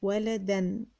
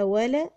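First: ولدًا as one careful "waladan"; joined tanween. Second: ولدًا split as "wala... dan"; tanween sounded out. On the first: Teacher reading back ولدًا, joined and careful. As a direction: say ولدًا whole, ending on "-an". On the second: Teacher writing ولدًا, sounding it out in parts. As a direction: hold back the final "dan" in ولدًا. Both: Shown as a demonstration. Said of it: "يبقى محتاج ألف مساعدة".

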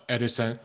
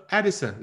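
First: "Edison" said the wrong way, the way to avoid; "Edison" as the mistake to drop. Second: "Edison" said higher with a falling end; right Edison. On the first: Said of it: "不要说". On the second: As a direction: say "Edison" the correct way, a little raised. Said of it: "说". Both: Shown as a demonstration.

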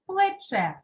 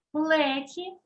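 First: Плече stressed on the final Е, falling; stress on last syllable. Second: Плечі stressed on Е, rising at the end; stress on first syllable. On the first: Teacher reads word pairs, плече stressed on final Е. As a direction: put the beat on the last vowel of плече. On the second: Teacher reads word pairs, плечі stressed on Е. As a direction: put the beat on Е in плечі. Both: Shown as a demonstration. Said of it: "став наголошеним голосний".

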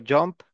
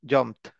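First: Said in the usual way. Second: "jumped" said with the ED as a T; final ED as T. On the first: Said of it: "como si fuera una T al final". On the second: Shown as a demonstration. Teacher showing how ED sounds at the end, "jumped" ending in T. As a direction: end "jumped" on a crisp T, one syllable. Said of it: "suele pronunciarse como si fuera una T".

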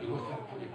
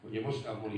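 First: Breathy whispered repeat of the jibe; whispered aside. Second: Said in the usual way. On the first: Real, not acted. Comic repeats the line, then whispers it.

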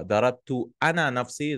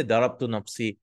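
First: أنا lifted and stressed, quick read. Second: Said in the usual way. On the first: Shown as a demonstration. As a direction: lean into أنا to stress who did it. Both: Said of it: "is more like, I was the one who hit myself".

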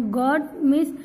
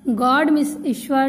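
First: गॉड said as goat with a hard t; teacher misreads गॉड with a closed o and t ending; slip on God. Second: Careful गॉड, open vowel, d at the end; corrected God. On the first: Real, not acted. Teacher stumbles reading गॉड from word list, slipped vowel. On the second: Shown as a demonstration. Teacher rereads गॉड correctly for the class, careful correction.

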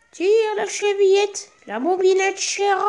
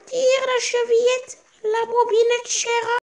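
First: Put-on wolf faking a gentle old granny, much higher; wolf softening his voice. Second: Put-on high, slow old woman's call from bed; old grandmother calling out. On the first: Wolf in bed calls to the girl, posing as a much higher grandmother. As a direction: soften it into a high, sweet grandmother's call. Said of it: "en adoucissant un peu sa voix". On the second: Sick grandmother in bed calls to the visitor, high and slow. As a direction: call out like a frail old granny, higher and slowly. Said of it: "lui cria".

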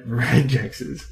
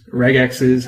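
First: "regexes" with a j sound in the middle; soft-g pronunciation. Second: "regexes" with the g of "regular"; hard-g pronunciation. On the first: Presenter showing viewers their own pronunciation, "regexes" said with a soft g. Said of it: "I pronounce them re". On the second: Presenter offering viewers the other pronunciation, "regexes" said with a hard g. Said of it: "how you wanna pronounce it". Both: Shown as a demonstration.

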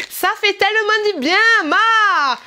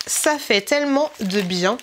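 First: High, loud hammed-up German accent. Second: Said in the usual way. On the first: Vlogger reading out a German product's slogan, exaggerated German accent. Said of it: "nous sommes en Allemagne". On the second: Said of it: "ça dit".

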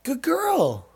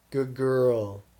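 First: High pet praise. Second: Said in the usual way. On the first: Real, not acted. Owner praises dog for choosing, high cooing voice.

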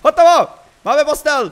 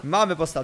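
First: High, loud shout of triumph; excited triumph. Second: Said in the usual way. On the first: Real, not acted. Player announcing the finished bed to viewers, excited. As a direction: shout it out, thrilled to have finished.

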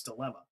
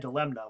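First: Said in the usual way. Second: "dilemna" softly, sounding m then n; pronounced with N. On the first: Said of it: "I know it's dilemma". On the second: Shown as a demonstration. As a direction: quietly say dih-LEM-nah for "dilemna". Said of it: "I actually even say it in my head".

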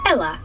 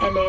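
First: Imitated Manchester accent, lower pitch. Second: Said in the usual way. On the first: Retelling the check-in man's reply, imitated Manchester accent. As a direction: mimic a Mancunian saying "Ella". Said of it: "I forgot he had an accent". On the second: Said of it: "And I was like".

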